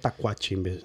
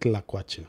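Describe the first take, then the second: First: The word begins with a plain t sound. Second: The word begins with a tl cluster. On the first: The speaker calls it wrong. "They call it tacuache instead of tlacuache" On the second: The speaker calls it right.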